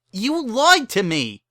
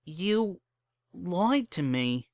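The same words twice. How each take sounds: First: Very high, loud, slow accusation; accusing shout. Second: Shocked Bon Bon. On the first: Bon Bon accusing Lyra of lying, loud shout. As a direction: hurl it at her. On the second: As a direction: let the shock land slowly. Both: Acted.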